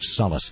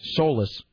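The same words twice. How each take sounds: First: The first vowel is a short O sound. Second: The first vowel is a long O sound. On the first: The speaker calls it right. "it is the short O sound" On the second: The speaker calls it wrong. "which I guess is actually the incorrect pronunciation"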